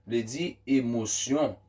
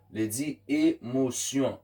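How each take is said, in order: Both takes have the same delivery.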